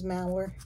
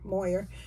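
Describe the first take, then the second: First: The first vowel sounds like 'ow'. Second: The first vowel sounds like 'oy'. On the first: The speaker calls it right. "but it is Mauer" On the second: The speaker calls it wrong. "I've been saying it wrong uh, for a year"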